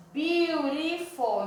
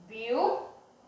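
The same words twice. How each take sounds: First: Beautiful drawn out slowly, syllable by syllable; slow model word. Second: Said in the usual way. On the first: Shown as a demonstration. Teacher models Beautiful slowly for students, drawn out. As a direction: stretch Beautiful slowly for the class to split it. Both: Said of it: "Então, vamos dividir aqui".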